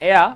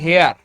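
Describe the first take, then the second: First: The word starts with no h sound. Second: The word starts with a clear h sound. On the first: This is the standard pronunciation. "শুদ্ধ উচ্চারণে এয়া" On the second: This is how Bengali speakers commonly say it. "আমরা বাংলায় বাঙালি হিসেবে বলি হেয়ার"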